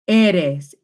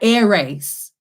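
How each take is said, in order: First: The r is a quick d-like tap. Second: The r is a hard English-style r. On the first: The speaker calls it right. "slightly sounds like a D" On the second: The speaker calls it wrong. "this is not air race"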